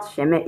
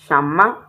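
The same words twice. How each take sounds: First: Sheme said with two e vowels, the learner mistake; wrong sheme. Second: Shama said with open a vowels; correct shama. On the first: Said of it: "It's not sheme". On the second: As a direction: give shama a clear open a. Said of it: "It's not sheme, it's shama". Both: Shown as a demonstration.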